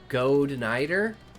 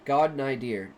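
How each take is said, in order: First: The first syllable sounds like 'goad'. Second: The first syllable sounds like 'god'. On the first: The speaker calls it wrong. "I pronounced that right?" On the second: The speaker calls it right. "Pronounced God Nidir"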